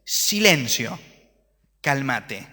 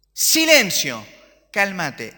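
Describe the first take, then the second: First: Said in the usual way. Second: Loud, higher command to the storm; commanding shout. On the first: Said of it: "Se levanta y dice". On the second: Retold or imitated. Preacher as Jesus rebuking the storm, loud shout. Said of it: "¿A quién se lo dice? A la tormenta".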